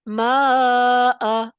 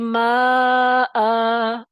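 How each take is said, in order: First: The final vowel is held only briefly. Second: The final vowel is drawn out very long. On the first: The speaker calls it right. "दो हरकत के बराबर खींचते हैं" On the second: The speaker calls it wrong. "आप ये नहीं करेंगे माअ, ये गलत है"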